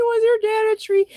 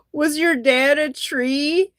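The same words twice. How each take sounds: First: Squeaky high and fast, giggling the words out; laughing through the line. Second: Slow, drawn-out question with a rise; deadpan comeback. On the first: Real, not acted. Repeating the friend's comeback while laughing, high and fast. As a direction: repeat it while still cracking up. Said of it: "it's so funny". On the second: Retold or imitated. Retelling the friend's comeback to the comedian, slow and deadpan. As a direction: lay the joke down slowly and deliberately. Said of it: "then my friend Jack Scotty goes".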